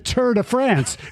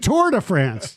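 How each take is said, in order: First: The R in "Tour" is dropped. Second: The R in "Tour" is pronounced. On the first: The speaker calls it wrong. "it's not the Tour de France" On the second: The speaker calls it right. "I pronounce the R"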